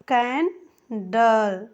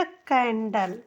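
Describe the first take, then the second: First: candle drawn out very slowly, "ke-en-dal"; slow repeat. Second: candle said clearly as "kendal"; model pronunciation. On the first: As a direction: stretch candle slowly so students hear each sound. (छात्रों के लिए candle बहुत धीरे) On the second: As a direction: say candle once, clearly, for the class. (Candle का साफ़ उच्चारण) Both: Shown as a demonstration. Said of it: "ऐनक मैं आपको से बोलना चाहती हूँ".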